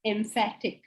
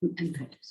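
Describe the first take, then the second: First: "emphatic" said as EM-fat-ik, with an M and F; correct pronunciation. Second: Quietly repeating "Emphatic" as EM-fat-ik; repeating the correction. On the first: Teacher corrects a student's word, saying "emphatic" clearly. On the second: Student quietly repeats the corrected word "Emphatic". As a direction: echo "Emphatic" back softly, stress on "fat". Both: Shown as a demonstration. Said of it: "Not empathetic, [name], emphatic".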